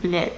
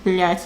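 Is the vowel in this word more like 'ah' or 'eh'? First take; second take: eh; ah. First: The vowel sounds like a short 'eh'. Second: The vowel sounds like an open 'ah'. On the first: The speaker calls it wrong. "the way people pronounce it" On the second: The speaker calls it right. "pronounce it as a instead of eh in that word"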